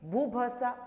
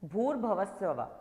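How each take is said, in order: First: Sounds are dropped and the syllables run together. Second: Every syllable of the phrase is clearly pronounced. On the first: The speaker calls it wrong. "it does mean I am not pronouncing it properly" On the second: The speaker calls it right. "Like I say Om Bhur Bhavasava"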